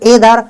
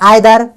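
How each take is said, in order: First: The word starts with an 'ay' vowel. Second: The word starts with an 'eye' vowel. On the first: "कोई एदर" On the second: "कोई भाई pronounce करता है आइदर"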